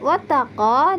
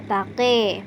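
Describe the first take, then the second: First: The final vowel is a clear open a. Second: The final vowel is tilted toward e.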